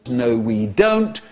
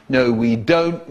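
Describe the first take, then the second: First: Slow, high-pitched rebuke; exasperated scolding. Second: Slow, lower repeat of a rebuke; firm scolding. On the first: Teacher answering their own question to the class, exasperated. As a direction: drag it out high, as a telling-off. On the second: Teacher repeating the answer to the class, firm. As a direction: spell it out slowly, pitched down. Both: Acted.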